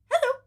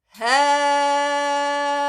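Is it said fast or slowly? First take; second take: fast; slowly. First: It is said very fast. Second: It is said very slowly.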